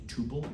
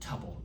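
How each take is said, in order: First: The first vowel does not rhyme with couple. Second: The first vowel rhymes with couple. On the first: The speaker calls it wrong. "It's the wrong pronunciation" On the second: The speaker calls it right. "Rhymes with couple"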